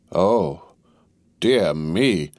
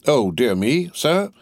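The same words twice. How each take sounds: First: Understated, hesitant "oh, dear me"; a touch of doubtful dismay; dismayed exclamation. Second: Affronted echo rising high on "sir"; higher-pitched, offended querying; taken-aback repeating. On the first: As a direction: exclaim in mild dismay, pausing after "oh". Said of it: "cried Mister Lorry". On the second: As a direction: throw the words back as a startled question. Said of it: "repeated Stryver, drawing back". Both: A narrator's reading.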